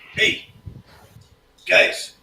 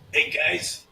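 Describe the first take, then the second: First: It is said in a whisper. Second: It is said in a normal voice.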